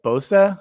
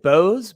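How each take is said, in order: First: It is said with a German pronunciation. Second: It is said with an English pronunciation. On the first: This is how the name is said in its original language. "the German pronunciation is more like Bosa" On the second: This is how the speaker says his own name. "I pronounce it Bose"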